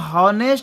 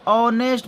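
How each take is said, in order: First: The word begins with an h sound. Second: The word begins with a vowel sound. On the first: The speaker calls it wrong. "इसको हम हॉनेस्ट नहीं पढ़ते" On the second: The speaker calls it right. "ऑनेस्ट पढ़ते"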